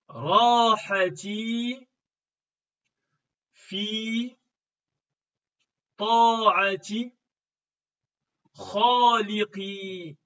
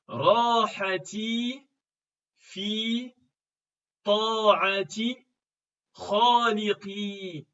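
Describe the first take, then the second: First: It is read slowly with long pauses between words. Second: It is read faster with short pauses between words.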